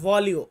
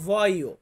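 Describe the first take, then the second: First: The middle is said with a clear L sound. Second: The middle is said with a Y sound. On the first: The speaker calls it wrong. "অনেকে বলে ভলিও" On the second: The speaker calls it right. "উচ্চারণের ক্ষেত্রে আমরা বলবো ভয়ো"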